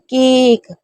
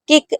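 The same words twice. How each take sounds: First: The vowel is drawn out long. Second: The vowel is said short. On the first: The speaker calls it right. "केक बहुत लंबा" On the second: The speaker calls it wrong. "केक ऐसे नहीं बोलते हैं"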